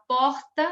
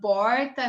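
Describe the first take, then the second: First: It is said with a throaty R. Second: It is said with a dragged caipira R.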